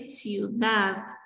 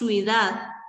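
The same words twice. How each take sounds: First: The word ends with a clear final D sound. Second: The word ends without a final D sound. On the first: The speaker calls it right. "con D al final" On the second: The speaker calls it wrong. "Ciudad en lugar de ciudad"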